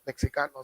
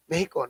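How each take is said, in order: First: Mexicano with the x said as "ks"; rejected pronunciation. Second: Mexico with the x said as h; Mexican pronunciation. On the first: Lecturer showing what Mexicans avoid, Mexicano with a ks sound. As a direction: say Mexicano as "Mek-si-ka-no". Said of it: "not Mexicano". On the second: Lecturer giving an example country, Mexico said with an h. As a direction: say Mexico as "Meh-hee-ko". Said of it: "is pronounced by Mexicanos as Mexico". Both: Shown as a demonstration.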